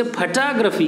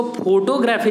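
First: फोटोग्राफी as "fuh-TAA-gruh-fee"; correct photography. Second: फोटोग्राफी as "FO-to-graphy", full o vowels; wrong photography. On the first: Teacher gives the English way, फोटोग्राफी as "fuh-TAA-gruh-fee". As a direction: stress the second syllable of फोटोग्राफी. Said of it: "इसे फोटोग्राफी कहते हैं". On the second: Teacher rejects a common reading, फोटोग्राफी as "FO-to-graphy". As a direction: stress the start of फोटोग्राफी, like photo plus graphy. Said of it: "नहीं कहते". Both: Shown as a demonstration.

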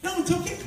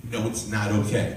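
First: Put-on very high child voice; imitated little daughter. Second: Said in the usual way. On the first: Daughter reassuring apologetic Daddy, high little voice. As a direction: pitch it way up like a small girl.

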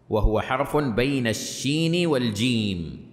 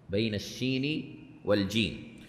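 First: Slow, deliberate recital of the text; measured reading from the book; slow quoted reading. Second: Softer echo of بين الشين والجيم to let it sink in; quiet, reflective restatement of the phrase; soft repeat. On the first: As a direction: read the quoted line slowly, weighing each word. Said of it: "يقول". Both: Shown as a demonstration.

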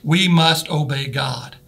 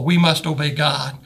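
First: Slow, each word weighted; We must obey God with every word leaned on; emphasis on first words. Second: Slow, God leaned on; stress on God. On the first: Preacher stresses the key phrase to the church, slow and weighty. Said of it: "put the emphasis on those first four words". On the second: Preacher begins with God, slow stressed phrase. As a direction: press on God at the end. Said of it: "first of all". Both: Shown as a demonstration.

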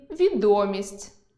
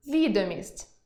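First: Відомість stressed on о, відо́мість, slowly; stress on the middle syllable. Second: Відомість stressed on і, ві́домість; stress on the first syllable. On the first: Teacher reading відо́мість, fame. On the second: Teacher reading ві́домість, document. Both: Shown as a demonstration. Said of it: "Прочитайте пари слів".

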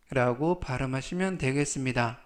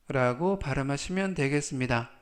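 Both takes have the same delivery.

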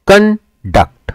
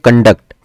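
First: conduct split in two, "कन" high and held, "duct" dropped; stress on first syllable. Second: Said in the usual way. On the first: Shown as a demonstration. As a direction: break conduct slowly into कन, pause, duct. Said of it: "तो कन पे हम stress देते हैं". (Conduct को तोड़कर, "कन" ऊँचा और खिंचा, "डक्ट" नीचे) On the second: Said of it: "जैसे हम कहते हैं".

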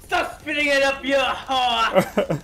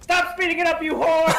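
First: Put-on loud French-accented scolding. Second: High, loud outburst; exasperated yell. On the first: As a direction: yell it as an indignant Frenchman. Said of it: "say it in your French accent, too". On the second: Acted. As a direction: yell it in mock outrage at the player. Sudden outburst at another player.

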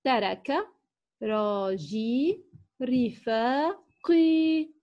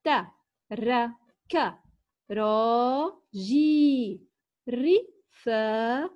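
First: Said in the usual way. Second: Very slow, ترك راجي رفاقي each drawn out with pauses; word by word. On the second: Shown as a demonstration. Teacher reading aloud to children, very slow and word by word. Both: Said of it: "لنقرأ معًا هذه الجمل".

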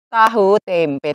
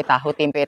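First: Ejekan panjang, "tahu tempe" diucapkan sangat lambat; mengejek pelan. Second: "tahu tempe" lebih pelan, seperti bergumam; ejekan lirih. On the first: ("tahu tempe" diseret lambat, nada menyindir) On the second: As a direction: gumamkan "tahu tempe" dengan nada sinis. ("tahu tempe" lirih menyindir) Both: Acted. Mocking neighbor's menu.

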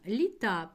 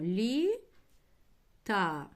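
First: Said in the usual way. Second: "Лі-та" cut clearly into two syllables, Лі and та; teacher spelling out "Лі-та" by syllable; syllable split. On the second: Shown as a demonstration. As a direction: split "Лі-та" in two, slowly, for the class. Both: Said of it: "Літа переносимо".

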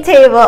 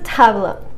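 First: Said in the usual way. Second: "tableau" said the French way, like TAH-bluh; French-accented "tableau" with an open "ah". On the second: Shown as a demonstration. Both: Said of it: "just say it with a French accent".

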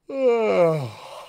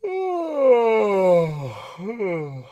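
First: Sighing yawn with the tongue tip kept forward; a controlled professional yawn. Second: Big sighing yawn with tongue pulled back; a sloppy amateur yawn. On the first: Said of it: "and we go this". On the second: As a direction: yawn it out loosely. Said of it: "you notice my tongue did this". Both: Shown as a demonstration.

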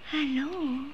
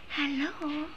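No difference in how they are said.

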